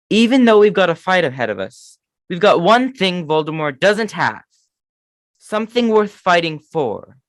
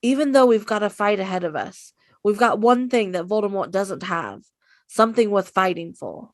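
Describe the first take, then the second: First: Put-on earnest, rousing Harry line, no British accent; Harry impression. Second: A light take on Harry's rallying line; rally them, lightly voiced; Harry impression. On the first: Harry rallying Dumbledore's army, earnest rousing speech. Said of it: "that was my Harry impression". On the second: Co-host tries Harry's speech, lightly voiced rousing. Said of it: "why don't you go ahead and try yours".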